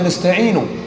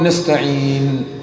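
First: The word ends with a short u vowel. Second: The word ends on a bare n sound. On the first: This is the original form of the word. "والأصل فيها نستعين" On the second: This is the form used when stopping on the word. "يعني النون التي عليها سكون هنا سكون عارض ينطق"

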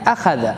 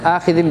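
First: The vowel after the kh is an 'a'. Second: The vowel after the kh is an 'i'. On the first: "فإذا كان بالفتح" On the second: "بالكسر"

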